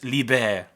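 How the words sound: The word is said with a French pronunciation. The speaker calls it right. "it's libre like like French"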